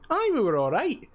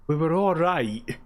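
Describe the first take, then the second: First: It sounds approving, genuinely fine. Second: It sounds lukewarm, only middling.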